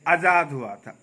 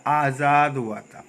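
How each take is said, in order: First: आज़ाद with a short, hurried first आ; wrong pronunciation. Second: आज़ाद slow, with long first आ; clear pronunciation. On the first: Teacher quoting the everyday slip, wrong pronunciation. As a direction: rush the opening vowel of आज़ाद. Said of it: "आज़ाद नहीं". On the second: Teacher says it must be spoken clearly, correct pronunciation. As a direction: draw out आज़ाद clearly and slowly. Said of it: "इसको साफ साफ बोलना है". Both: Shown as a demonstration.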